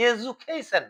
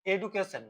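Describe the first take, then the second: First: এডুকেশন as "e-ju-kay-shun", slowly; modern English pronunciation. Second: এডুকেশন with a hard d, "e-du-ke-shon"; এডুকেশন with an unsoftened "du"; older pronunciation. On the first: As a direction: soften the d of এডুকেশন to a "j" and open out "kay". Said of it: "modern ইংলিশে এটাকে". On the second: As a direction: say এডুকেশন the old way, with plain "du" rather than "ju". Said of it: "এডু আর বলে না". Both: Shown as a demonstration.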